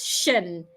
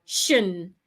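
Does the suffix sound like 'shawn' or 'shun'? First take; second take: shun; shun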